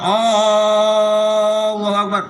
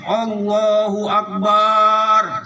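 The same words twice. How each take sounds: First: The opening vowel of Allah is drawn out. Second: The b sound in Akbar is drawn out. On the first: "jangan panjangin mat. Mat hamzahnya itu" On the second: "jangan panjangin huruf ba-nya"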